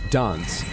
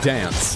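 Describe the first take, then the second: First: It is said with an Adelaide Australian vowel. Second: It is said with a Melbourne Australian vowel. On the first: "in Adelaide, many people say dance" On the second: "in Melbourne, I believe they say dance"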